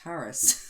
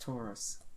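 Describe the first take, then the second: First: It sounds close to the word Tardis. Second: It is said as plain Taurus, like the bull. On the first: The speaker calls it wrong. "he doesn't say it right because he says Taurus, which I think is kind of like the thing from Doctor Who" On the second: The speaker calls it right. "That's not the same as Taurus, which is a bull"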